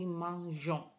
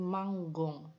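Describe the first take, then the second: First: The g is pronounced soft, like in beige. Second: The g is pronounced hard, like in go. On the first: The speaker calls it right. "agar tetap soft g-nya" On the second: The speaker calls it wrong. "huruf g ini tidak soft bunyinya, dia akan harus dibaca menjadi manggong"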